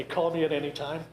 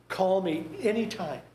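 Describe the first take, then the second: First: Said in the usual way. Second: Breezy, empty offer said lightly; hollow politeness. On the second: Retold or imitated. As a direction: toss it off like you don't mean it. Imitating dismissive mourner at funeral.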